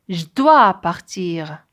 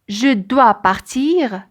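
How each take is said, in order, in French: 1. La voyelle de 'je' est élidée. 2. La voyelle de 'je' est entièrement prononcée.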